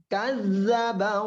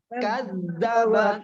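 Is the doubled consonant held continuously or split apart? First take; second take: continuous; split. First: The doubled consonant is held without a break. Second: The doubled consonant is split with a break. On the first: The speaker calls it right. "Jadi dihidupkan terus" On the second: The speaker calls it wrong. "Contohnya yang salah seperti ini"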